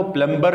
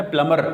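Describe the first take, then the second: First: پلمبر as "plum-ber"; wrong pronunciation. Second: پلمر as "plum-mer"; correct silent-b pronunciation. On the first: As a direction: sound the b in پلمبر. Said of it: "پلمبر نہیں ہے". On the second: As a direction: say پلمر without a b. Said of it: "اس میں بی silent ہے". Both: Shown as a demonstration.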